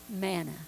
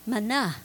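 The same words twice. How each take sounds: First: The word is said with an English pronunciation. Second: The word is said with a Hebrew pronunciation. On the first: "we pronounce it manna" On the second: "in Hebrew it is called, if I can pronounce it right"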